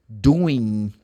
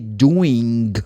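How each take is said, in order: First: The ending is said with a final n sound. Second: The ending is said with a final g sound. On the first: "they just finish the pronunciation of the ing with the n" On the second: "pronunciation of the verb doing with ing"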